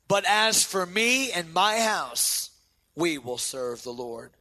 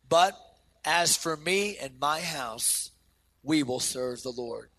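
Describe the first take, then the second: First: It is said with strong, earnest conviction. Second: It is said in a plain reading voice.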